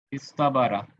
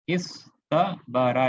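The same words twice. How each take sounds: First: Said in the usual way. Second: इस तबारा spoken very slowly, each syllable held; teacher slowly modelling इस तबारा for the class; slow demonstration. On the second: Shown as a demonstration. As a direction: draw out इस तबारा so every letter is heard. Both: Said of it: "ये original ऐसा था".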